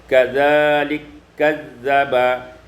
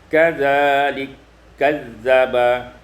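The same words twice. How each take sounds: No difference in how they are said.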